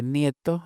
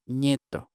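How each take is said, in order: First: Said in the usual way. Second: "ñeto" with an initial ñ; slow "ñeto", ni merged into ñ; N palatalized to ñ. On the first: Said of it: "En lugar de". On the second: Shown as a demonstration. Linguist showing what they say for grandson, palatal ñ. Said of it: "se convierte en ñ ante I".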